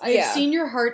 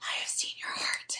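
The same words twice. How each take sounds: First: It is said in a plain, normal speaking voice. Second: It is said in a put-on, whispery, eerie voice.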